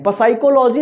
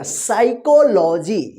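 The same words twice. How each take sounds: First: Quick पसाइकोलॉजी with an extra "pa" before "sai"; mispronounced with P. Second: साइकोलॉजी slow and measured, beginning on "sai"; silent P. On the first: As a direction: rattle off the mistake पसाइकोलॉजी, P sounded. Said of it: "पसाइकोलॉजी नहीं होगा". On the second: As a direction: stretch out साइकोलॉजी with no P sound. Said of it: "पी जो है ना पी क्या रहेगा". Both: Shown as a demonstration.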